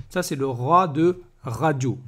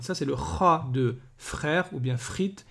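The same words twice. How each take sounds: First: "ra" with a tapped r; slow, clear "ra"; rolled ra. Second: "ra" said with a throaty French r; slow throaty "ra"; guttural ra. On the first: Teacher contrasting two r letters, tapped r. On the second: Teacher contrasting two r letters, throaty French r. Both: Shown as a demonstration. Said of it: "Faut pas les confondre".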